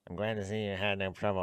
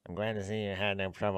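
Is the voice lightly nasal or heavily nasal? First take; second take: heavily nasal; heavily nasal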